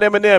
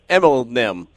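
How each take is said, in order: First: The name is said with no L sound. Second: The name is said with an L sound. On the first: The speaker calls it wrong. "it's not Eminem" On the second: The speaker calls it right. "it's [name]"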